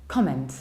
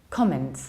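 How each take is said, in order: No difference in how they are said.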